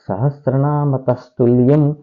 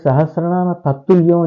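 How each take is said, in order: First: An s sound comes before 'tulyam'. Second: A t sound comes before 'tulyam'. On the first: The speaker calls it right. "అని అసలు శ్లోకం" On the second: The speaker calls it wrong. "ఒక పెద్ద దోషాన్ని ఒకటి ఉచ్చరిస్తున్నారు తెలియక"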